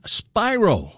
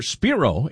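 First: "Spiro" said like SPY-roh; "Spiro" rhyming with "gyro", as SPY-roh; first pronunciation. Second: "Spiro" said like SPEER-oh; "Spiro" as SPEER-oh, first syllable like "spear"; alternative pronunciation. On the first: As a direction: say "Spiro" with a long eye vowel. Host tries two pronunciations of surname. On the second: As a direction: say "Spiro" with an ee vowel. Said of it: "as you say it". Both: Shown as a demonstration.

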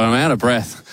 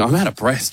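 First: Puffing after the walk; out of breath. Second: Winded after walking the store; puffing between words; out of breath. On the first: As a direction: still winded, catching breath. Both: Real, not acted.

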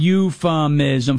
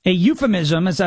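First: "euphemism" said slowly, syllable by syllable, mockingly; spelled-out big word. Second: Said in the usual way. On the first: Shown as a demonstration. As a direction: draw "euphemism" out slowly, syllable by syllable, as if to slow listeners. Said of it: "four syllables". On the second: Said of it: "and it's a big word".

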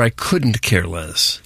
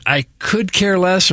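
First: "couldn't" stressed, slow; "I couldn't care less" said slow, leaning on couldn't. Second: "care" drawn out slowly; "I could care less" said slow, leaning on care; stress on care. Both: Shown as a demonstration. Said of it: "Is it".

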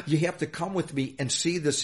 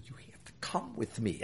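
First: Said in the usual way. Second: Hushed, very soft urgent aside; retold whisper. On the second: Station boss to his general manager at the ballpark, whispering. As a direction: whisper it as you act out the moment. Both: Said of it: "I'm whispering".

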